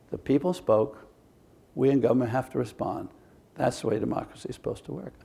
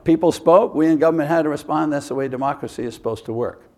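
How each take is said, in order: First: It is said slowly. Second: It is said fast.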